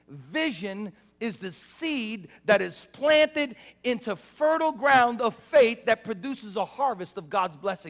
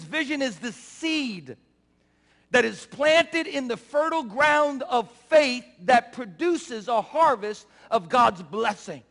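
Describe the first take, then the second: First: It is said at a faster pace. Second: It is said at a slower pace.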